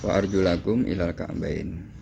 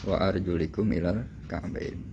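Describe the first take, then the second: First: The vowel after 'arjul' is an 'a' sound. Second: The vowel after 'arjul' is an 'i' sound. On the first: The feet are read as objects to be washed. "kalau dibaca nasab wa arjulakum" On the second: The word is read in the genitive case. "lamnya tidak dinasobkan tapi dijerkan, dibaca khafad"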